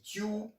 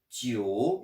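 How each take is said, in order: First: The final vowel sounds like 'oo'. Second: The final vowel sounds like 'oh'. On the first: The speaker calls it wrong. "J'ai pas dit Tiu" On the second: The speaker calls it right. "j'ai prononcé Tio"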